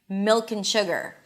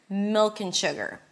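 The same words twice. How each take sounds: No difference in how they are said.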